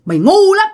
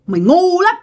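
First: High eerie "mày ngu lắm"; shrill ghost scolding. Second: High but quieter repeat of "mày ngu lắm"; ghost scolding softer. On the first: Ghost woman scolding the foolish girl. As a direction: screech it up high. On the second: Ghost woman repeating her scolding to the girl. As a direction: drop the level, keep it eerie. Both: Retold or imitated. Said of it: "giọng của bả nghe vang vang".

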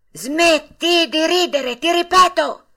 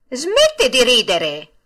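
First: Slow, much higher and louder threatening shout; threatening yell. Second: Slow, louder annoyed order; irritated. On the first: Geppetto repeating his order to the puppet, threatening yell. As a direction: bellow the warning so he is obeyed. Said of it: "urlò con voce minacciosa". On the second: Geppetto to the laughing puppet, irritated order. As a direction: scold the mocking mouth in irritation. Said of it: "disse Geppetto impermalito". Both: A narrator's reading.

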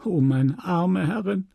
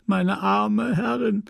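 First: Higher, mournful cry of meine arme Herrin; a first tearful wail; tearful lament. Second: Meine arme Herrin much higher and slow, voice breaking; sobbing lament. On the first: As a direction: lament over her dead mistress. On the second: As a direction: let the grief break through, slowly. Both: Acted. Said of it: "Félicité schluchzte".

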